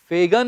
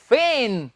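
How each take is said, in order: First: The word is said with a g sound. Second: The word is said without a g sound. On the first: The speaker calls it wrong. "फेगन नहीं, जी इसमें हम नहीं बोलेंगे" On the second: The speaker calls it right. "इसका सही उच्चारण है students फेन"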